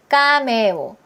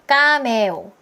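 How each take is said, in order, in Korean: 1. 밋밋하게, 한국식 음절로 발음해요. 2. 밋밋하게, 한국식 음절로 발음해요.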